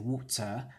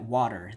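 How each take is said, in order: First: It is said in a non-American English accent. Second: It is said in an American English accent.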